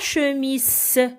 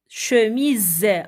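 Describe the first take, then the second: First: The last consonant is an s sound. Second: The last consonant is a z sound. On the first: The speaker calls it wrong. "ce n'est pas chemise" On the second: The speaker calls it right. "c'est chemise avec le son Z à la fin"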